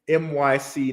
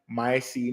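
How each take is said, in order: First: Each letter is said separately, one by one. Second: The first part is said as the word my. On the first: The speaker calls it right. "It's M Y C Network" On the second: The speaker calls it wrong. "I always say that, say it wrong"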